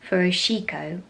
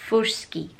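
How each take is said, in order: First: It is said with an English accent. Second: It is said with a Japanese-style pronunciation. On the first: The speaker calls it wrong. "if I was saying it in my English accent" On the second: The speaker calls it right. "it's more like"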